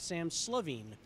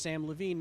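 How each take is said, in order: First: The surname starts with an S sound. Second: The surname starts with an L sound. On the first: The speaker calls it wrong. "not Sam Slovene" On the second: The speaker calls it right. "my name is Sam Levine"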